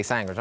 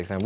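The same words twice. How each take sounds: First: "sandwich" said as "sangwich"; Brooklyn pronunciation. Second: Said in the usual way. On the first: Shown as a demonstration. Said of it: "We say sandwich". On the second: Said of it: "how y'all say sandwich".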